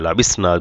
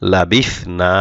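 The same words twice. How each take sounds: First: The middle consonant is a plain 's' sound. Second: The middle consonant is a lisped 'th' sound. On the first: The speaker calls it wrong. "লাবিসনা বললে কিন্তু সিন হয়ে যাবে" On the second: The speaker calls it right. "সা অবশ্যই জিব্বার আগা দিয়ে বলবেন"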